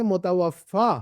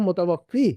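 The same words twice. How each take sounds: First: मुतवफ़ा with a clear final "-faa"; careful मुतवफ़ा, long aa ending; contrasted ending. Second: मुतवफ़ी with a clear final "-fee"; careful मुतवफ़ी, long ee ending; contrasted ending. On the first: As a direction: land on the aa of मुतवफ़ा. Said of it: "उसको कहेंगे मुतवफ़ा". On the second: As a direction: land on the ee of मुतवफ़ी. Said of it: "अल्लाह को कहेंगे हम". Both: Shown as a demonstration.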